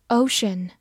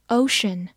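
No difference in how they are said.

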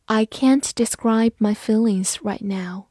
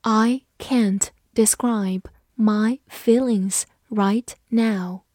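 First: Said in the usual way. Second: Slow, separated words; unhurried teacher modelling, pausing between words; slow read-along. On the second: Shown as a demonstration. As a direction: read slowly so learners can follow. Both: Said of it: "跟着我慢读一遍".

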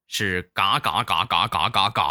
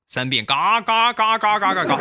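First: Quacking syllables. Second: 嘎嘎嘎嘎嘎嘎嘎 yelled high and loud like a duck; 嘎嘎嘎嘎嘎嘎嘎 shouted high with a falling end; loud quacking shout. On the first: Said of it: "口令是什么呢". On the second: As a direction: quack the 嘎 syllables at full volume. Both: Shown as a demonstration.

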